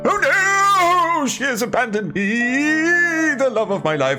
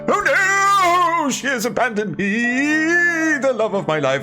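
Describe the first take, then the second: First: It is read with dramatic feeling. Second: The same.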